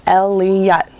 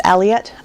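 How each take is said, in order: First: Elliott split into El-li-ott; syllable by syllable. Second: Said in the usual way. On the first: Shown as a demonstration. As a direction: count out Elliott in three distinct beats. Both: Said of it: "three syllables".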